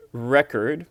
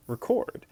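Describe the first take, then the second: First: RE-cord, stress on the first syllable; noun record. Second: Re-CORD, stress on the second syllable; verb record. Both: Shown as a demonstration. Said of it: "pronounced record".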